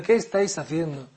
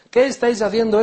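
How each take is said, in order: First: Said in the usual way. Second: Higher, louder desperate plea; anguished cry. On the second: Acted. Abu Huraira crying out to the companions pressing his neck, loud. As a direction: cry it out from the ground.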